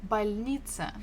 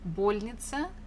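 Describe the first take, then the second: First: The stress is on the middle syllable. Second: The stress is on the first syllable. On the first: The speaker calls it right. "The stress falls on E" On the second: The speaker calls it wrong. "If you stress the first one"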